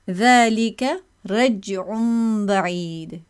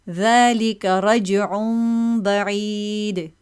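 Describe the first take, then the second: First: The stopped consonant is held with no bounce. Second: The stopped consonant is released with a bounce. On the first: The speaker calls it wrong. "if I say it with the sadum without separation, it would be very uncomfortable" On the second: The speaker calls it right. "With qalqala, with this bounce"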